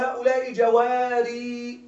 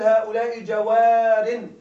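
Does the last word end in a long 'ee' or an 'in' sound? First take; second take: long ee; in. First: The last word ends in a long 'ee' sound. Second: The last word ends in a short 'in' sound. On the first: The speaker calls it wrong. "لا تقل" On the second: The speaker calls it right. "قل"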